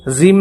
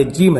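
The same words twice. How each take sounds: First: زیم with a buzzing Z at the start; زیم, Z in place of J; wrong Z sound. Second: جیم with a clear J at the start; جیم, J rather than Z; correct J sound. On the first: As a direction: say "zeem" for the letter jeem. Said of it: "زیم نہیں بولنا". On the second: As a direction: say "jeem", J as in jam. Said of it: "یہ جیم ہے". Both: Shown as a demonstration.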